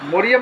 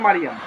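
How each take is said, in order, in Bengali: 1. প্রথম স্বরধ্বনিটি 'o' এর মতো শোনায়। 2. প্রথম স্বরধ্বনিটি 'a' এর মতো শোনায়। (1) "মরিয়াম শব্দ না" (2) "মারিয়াম বলো আমার সাথে"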